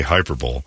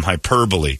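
First: Hyperbole said as "hyper-bowl", lower; mock mispronunciation. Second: Hyperbole said as hy-PER-buh-lee; correct pronunciation. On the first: Quoting how dumb people say it, hyperbole as "hyper-bowl". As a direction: end hyperbole in "bowl", no final ee. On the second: Reading out a cartoonist's summary, hyperbole ending in "-lee". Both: Shown as a demonstration. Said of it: "or as dumb people say".

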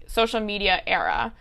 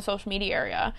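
First: "era" said in two syllables, AIR-uh; corrected pronunciation. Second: "area" said with an extra syllable, AIR-ee-uh; slipped pronunciation. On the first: Podcaster fixing a slip about social media, "era" as AIR-uh. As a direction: restate it cleanly with "era" as AIR-uh. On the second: Podcaster slipping while talking about social media, "area" as AIR-ee-uh. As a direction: stumble into "area", three syllables for a two-syllable word. Slip, corrected in next phrase. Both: Real, not acted.

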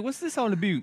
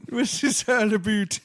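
First: High put-on puzzled voice; mock Canadian listener. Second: Much higher and louder puzzled voice; mock Canadian listener, louder. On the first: Cohost voicing a Canadian listener, high puzzled mock voice. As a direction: ask it like a confused foreign fan. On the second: Host echoing the Canadian listener voice, louder and higher. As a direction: echo it louder as a baffled fan. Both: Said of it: "She's like".

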